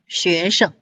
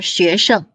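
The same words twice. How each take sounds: First: The second syllable is light, in neutral tone. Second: The second syllable carries a full first tone.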